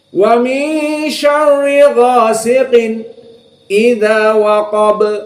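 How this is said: A brief silent stop comes before the next word. "Maka dibiarkan namun dengan saqt"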